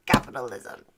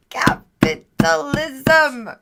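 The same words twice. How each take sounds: First: Much lower, matter-of-fact; low deadpan repeat. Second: Slow, punched, theatrical; drawn-out mock proclamation. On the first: Pretend. Streamer undercutting own joke about wings, low deadpan. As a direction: drop it down deep, falling at the end. Drops to low aside after proclamation. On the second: Streamer joking about selling wings, drawn-out mock proclamation. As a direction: stretch it out syllable by syllable. Repeats word in contrasting mock delivery.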